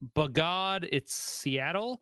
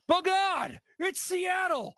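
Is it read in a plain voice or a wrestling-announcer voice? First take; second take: plain; wrestling announcer. First: It is read in an ordinary speaking voice. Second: It is read in a loud announcer-style voice.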